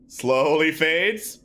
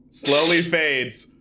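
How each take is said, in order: First: Drawn-out words lifting at the end; slow suspenseful fade, rising. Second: Drawn-out words, tune falling; slow fade with falling close. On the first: Game master teases fading light, drawn out and rising. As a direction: stretch it out, leave it hanging. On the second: Game master narrates dimming light, drawn out and falling. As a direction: stretch it out and let it drop. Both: A narrator's reading.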